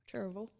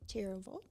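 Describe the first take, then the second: First: The name is said in the local pronunciation. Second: The name is said in an outsider's pronunciation. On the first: The speaker calls it right. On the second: The speaker calls it wrong.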